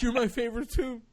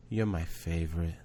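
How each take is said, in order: First: High, mock-weepy squeal; overcome with love. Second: Low, soft, hushed sweetness; tender niece's confession. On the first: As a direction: gush back like a doting uncle falling apart. Overcome uncle answers his niece. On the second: Retold or imitated. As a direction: softly imitate a child sharing a secret.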